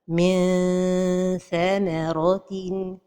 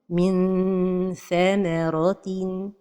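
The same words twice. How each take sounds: First: The tongue is too far, stretching it like a vowel. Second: The tongue touches the palate, giving a clear n. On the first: "La deuxième erreur est de trop éloigner la langue du palais supérieur" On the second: "La première erreur est de toucher le palais, le palais supérieur avec le bout de la langue"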